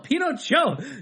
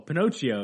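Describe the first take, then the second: First: The name is said with a Spanish pronunciation. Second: The name is said with an English pronunciation. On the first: The teacher corrects how the title is said. The speaker calls it right. "she's like, no, Pinocchio" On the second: The students say the title the way they know it. The speaker calls it wrong. "everyone was like, oh, Pinocchio"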